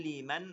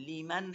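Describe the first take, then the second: No difference in how they are said.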